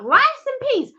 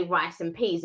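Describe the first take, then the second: First: Much higher disbelieving "Rice and peas?"; incredulous question. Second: Said in the usual way. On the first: Retold or imitated. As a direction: act baffled by "Rice and peas?". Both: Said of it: "and you're like".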